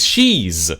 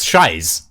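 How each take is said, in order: First: The name rhymes with 'keys'. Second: The name rhymes with 'pies'. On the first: The speaker calls it right. "it is She's" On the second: The speaker calls it wrong. "first time I ever read that, I was like, "That's Shies," but no"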